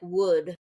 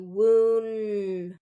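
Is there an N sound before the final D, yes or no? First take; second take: no; yes. First: The N sound is dropped before the D. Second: The N sound is kept before the D. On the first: The speaker calls it wrong. "I'll hear that N dropped and it just sounds like wood" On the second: The speaker calls it right. "We got to get that N in there"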